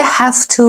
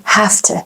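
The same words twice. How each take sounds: First: "have to" with a full "too"; full form. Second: "have to" as "hafta"; reduced form. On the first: Teacher naming the phrase before reducing it, full form. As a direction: say "have to" carefully, unreduced. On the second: Teacher showing how Americans say it, reduced. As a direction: weaken "to" in "have to" to "tuh". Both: Shown as a demonstration.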